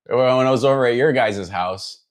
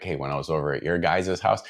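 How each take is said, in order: First: Thick Chicago accent, pitched up; exaggerated Chicago regional accent; strong South Side Chicago accent. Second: Put-on understated Midwest accent, easy delivery; milder Chicago accent. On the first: Shown as a demonstration. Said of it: "very strong, like, South Side Chicago accent". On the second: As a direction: keep the Chicago accent light. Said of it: "it was definitely like".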